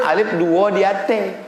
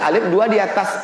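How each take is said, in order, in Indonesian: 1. Kata terakhir diucapkan 'ate'. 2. Kata terakhir diucapkan 'atas'. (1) "Itu dari Minangkabau" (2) "Kalau pakai bahasa Indonesia"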